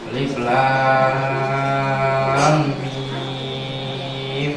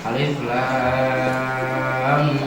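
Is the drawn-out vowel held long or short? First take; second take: long; short. First: The vowel in lam is held for six counts. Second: The vowel in lam is held for two counts. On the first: "Jika enam harokat" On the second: "Jika dua harokat"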